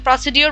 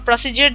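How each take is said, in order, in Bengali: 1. মাঝের ব্যঞ্জনধ্বনিটি সাধারণ 'd' ধ্বনি। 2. মাঝের ব্যঞ্জনধ্বনিটি 'j' ধ্বনি। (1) "প্রসিডিওর বা প্রসিজিয়ার যেটাই আপনি উচ্চারণ করেন, দুটোই কারেক্ট" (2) "প্রসিডিওর বা প্রসিজিয়ার যেটাই আপনি উচ্চারণ করেন, দুটোই কারেক্ট"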